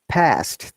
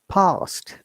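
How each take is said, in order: First: It has an American accent with a shorter vowel. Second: It has a British accent with a longer vowel. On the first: "red color is the American I P A. Past, they said" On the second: "we in the U K we call we say past"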